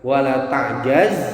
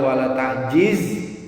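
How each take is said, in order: First: The vowel after the j is 'a'. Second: The vowel after the j is 'i'. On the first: "jimnya itu bisa pakai fathah" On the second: "atau kasroh"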